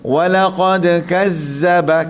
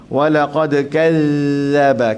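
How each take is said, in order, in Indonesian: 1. Bunyi z muncul dulu, lidah dikeluarkan kemudian. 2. Lidah langsung dikeluarkan untuk bunyinya. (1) "kazza, lepas tu baru keluar lidah kemudian" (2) "dia kena serta merta"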